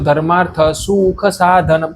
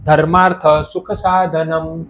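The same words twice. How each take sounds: First: The first vowel of sukha is lengthened. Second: The first vowel of sukha is short. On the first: The speaker calls it wrong. "તમે એમ કહો છો" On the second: The speaker calls it right. "શું એટલે આ હ્રસ્વ શું છે"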